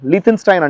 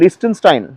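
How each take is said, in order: First: The second syllable starts with a th sound. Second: The second syllable starts with an s sound. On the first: This is how the locals say it. The speaker calls it right. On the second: This is how outsiders assume it is said. The speaker calls it wrong. "మనం లిస్టెన్ అనుకున్నాం"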